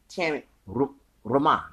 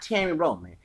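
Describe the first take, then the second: First: The name is pronounced the Spanish way. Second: The name is pronounced the English way. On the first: The speaker calls it right. "It's Terry Roman. Okay, in Spanish" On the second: The speaker calls it wrong. "It's not Terry Roman"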